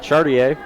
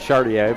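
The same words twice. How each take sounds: First: The name is said with English sounds. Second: The name is said with French sounds.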